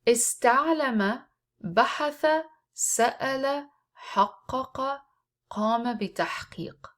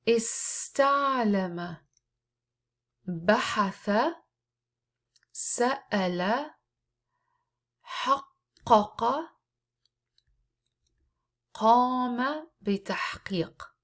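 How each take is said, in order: First: The words are read at a faster pace. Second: The words are read at a slower pace.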